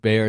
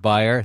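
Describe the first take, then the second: First: Bayer said as BAY-er, close to bear; American pronunciation. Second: Bayer said as BUY-er; German-style pronunciation. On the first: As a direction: say Bayer with an "ay" vowel, not "eye". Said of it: "the American pronunciation of Bayer instead". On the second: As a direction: say Bayer with an "eye" vowel, like buyer. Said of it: "American pronunciation of Bayer instead of". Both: Shown as a demonstration.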